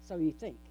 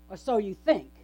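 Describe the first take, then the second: First: "you" leaned on, softer and lower in a wry echo; murmured "so YOU think"; stress on YOU. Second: "so" leaned on, falling away at the end; wry "Or SO you think"; stress on SO. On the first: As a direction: quietly hit "you" in "So you think". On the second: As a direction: hit the word "so" in "Or so you think". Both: Shown as a demonstration.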